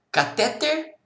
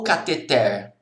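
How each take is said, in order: First: "catéter" stressed on middle syllable, ca-TÉ-ter; tônica na penúltima. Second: "cateter" stressed on final syllable, ca-te-TER; tônica na última. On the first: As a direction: hit TÉ in "catéter". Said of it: "Como que é o nome daquilo?". ("catéter" com a tônica no TÉ) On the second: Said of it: "a sílaba tônica é a última". ("cateter" com a tônica no TER final) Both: Shown as a demonstration.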